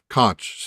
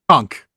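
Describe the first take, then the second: First: The word ends with a 'ch' sound. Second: The word ends with a 'k' sound. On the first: This is the familiar pronunciation. "That's not how they pronounce it there" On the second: This is how locals there say it. "like getting conked in the head"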